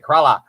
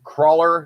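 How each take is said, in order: First: It is said in an Australian accent. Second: It is said in an American accent.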